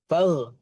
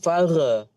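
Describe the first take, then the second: First: The final consonant stops cleanly with no echo. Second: The final consonant has an added echoing bounce. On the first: The speaker calls it right. "Berhenti dan habis di situ" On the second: The speaker calls it wrong.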